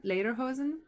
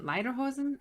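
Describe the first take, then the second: First: Lederhosen with LAY and a rise; lederhosen said LAY-der-hosen. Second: Lederhosen with a long I, lighter-hosen. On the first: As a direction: correct yourself: lederhosen. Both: Shown as a demonstration. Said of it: "a pair of lederhosen".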